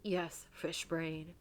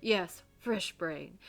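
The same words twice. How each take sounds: First: FISH BRAIN said very slowly as an unsure attempt; unsure pronunciation. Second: FISH BRAIN said firmly, at normal speed; confident retake. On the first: Reverend insulting a heretic, FISH BRAIN slow and tentative. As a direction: feel out "fish brain" slowly, not sure of the word. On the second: Acted. Reverend naming heretics, FISH BRAIN firm and unhesitating. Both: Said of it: "I don't know how to say that".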